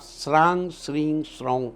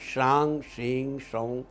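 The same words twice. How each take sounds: First: The syllables begin with an 's' sound. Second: The syllables begin with an 'sh' sound. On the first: It becomes Ketu's mantra instead. The speaker calls it wrong. "शा और सा का थोड़ा ध्यान रखिएगा। अगर आप श्रांग श्रीं श्रौं कह देंगे तो वो केतु का मंत्र हो जाएगा।" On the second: It is the moon god's mantra. The speaker calls it right. "Chandradev का मंत्र है"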